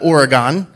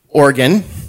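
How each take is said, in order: First: It is said the way outsiders pronounce it. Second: It is said the way locals pronounce it. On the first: The speaker calls it wrong. "not Oregon" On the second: The speaker calls it right. "that's how we pronounce it"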